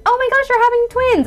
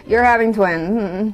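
First: Mock excited squeal, very high; hammed-up delighted announcement; happy and positive. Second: Slow, subdued delivery of worrying news; grave, drawn-out announcement; concerned. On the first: Shown as a demonstration. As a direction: gush the news as overjoyed congratulations. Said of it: "like, a happy, positive". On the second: Retold or imitated. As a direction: say it hesitantly, as troubling rather than happy. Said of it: "she looks just so concerned".

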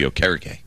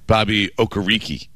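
First: "Okereke" ending in -kay; low-pitched "Okereke", stressed KEH, final kay; corrected pronunciation. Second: "Okereke" ending in -REE-kee; slow "Bobby Okereke", stressed REE, final kee; old pronunciation. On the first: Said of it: "it was gonna be Okereke". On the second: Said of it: "it was not pronounced that way". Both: Shown as a demonstration.

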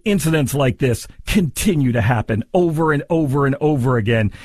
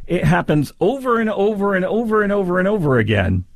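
First: Said in the usual way. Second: Over and over piled up, higher and mocking; mocking repetition. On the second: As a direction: stretch the over and over to mock the lawyer. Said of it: "I hear that and I think, huh".

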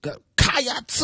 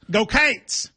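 First: "Cats" stretched high into two syllables, kaa-ats; overdone "Cats" with an added syllable; drawn-out Go Cats. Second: "Cates" said as one quick syllable, like Kates; Kentucky fan cheer "Go Cates" with a long A. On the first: Co-host trying the Kentucky cheer, stretching "Cats" too long. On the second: Host teaching co-host the Kentucky cheer, "Cates" with a long A. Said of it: "in Kentucky would go". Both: Shown as a demonstration.

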